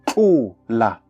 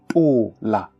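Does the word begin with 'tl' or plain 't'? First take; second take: tl; plain t. First: The word begins with a 'tl' sound. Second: The word begins with a plain 't' sound. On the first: This is the usual South African form. "the word tola" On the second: This is the Bangwato dialect form. "would be tola"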